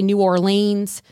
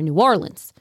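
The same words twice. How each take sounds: First: The name is pronounced the way outsiders say it. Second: The name is pronounced the way locals say it. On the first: The speaker is not from the area. The speaker calls it wrong. "Please don't say New Orleans" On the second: The speaker is from the area. The speaker calls it right. "Now you know"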